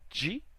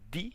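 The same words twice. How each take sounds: First: It is said in a general Brazilian accent. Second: It is said in a northeastern Brazilian accent. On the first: "no resto do Brasil" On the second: "Nordeste, alguns lugares falam de"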